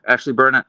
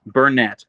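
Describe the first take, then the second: First: Burnett with the stress on BUR and a weak, clipped second syllable, BUR-nuh; wrong stress guess. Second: Burnett with the stress on NETT, a full clear final syllable; corrected stress. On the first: Streamer reading a viewer's name aloud, stressing Burnett on BUR. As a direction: say Burnett as BUR-nit, first syllable strong. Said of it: "is it Burnett or Burnett? Where should I put the emphasis".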